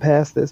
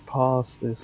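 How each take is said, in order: First: It is said with an American twang. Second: It is said with a British accent.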